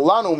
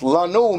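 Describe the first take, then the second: First: "Lanu" accented as the word for to us; stress for "to us". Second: "Lanu" drawn out, accented as they slept; stress for "they slept". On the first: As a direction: say "Lanu" meaning to us. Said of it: "To, uh, to us". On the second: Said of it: "Lanu means they slept". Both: Shown as a demonstration.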